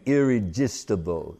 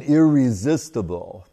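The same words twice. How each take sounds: First: "irresistible" with a j sound for the z; Bengali pronunciation. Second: Said in the usual way. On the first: Retold or imitated. Explaining the guru's Bengali sounds, "irresistible" said with j for z. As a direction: say "irresistible" as "irrejistible", Bengali-style. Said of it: "Bengalis cannot say z. So they say ja". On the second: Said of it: "Bengalis cannot say z".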